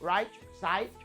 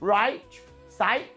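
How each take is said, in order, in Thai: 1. คำพูดออกเสียงธรรมดา ไม่เกินจริง 2. ทุกเสียงออกเสียงด้วยการเน้นเกินจริง (1) "ก็ออกธรรมดาไม่ต้องเยอะขนาดนั้น" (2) "ว่ามันเยอะไปไม่ต้อง"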